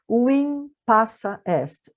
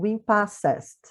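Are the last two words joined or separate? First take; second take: separate; joined. First: The last two words are said separately. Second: The last two words are run together.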